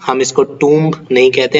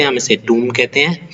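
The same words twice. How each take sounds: First: टूम्ब with the b sounded at the end; टूम्ब mispronounced with b; wrong tomb. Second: टूम्ब ending on m, b silent; correct tomb. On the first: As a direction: show टूम्ब said with a final b. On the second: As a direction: model टूम्ब as toom. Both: Shown as a demonstration.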